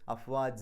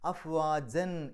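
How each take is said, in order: First: The word ends with a lengthened vowel. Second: The word ends with an n sound. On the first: The reading stops here. "നിർത്തുമ്പോൾ അഫ്വാജ എന്ന് പറഞ്ഞിട്ടാണ്" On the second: The reading continues without stopping. "അഫ്വാജൻ എന്നാണ് അവിടെ പാരായണത്തിൻ്റെ അവസാനം"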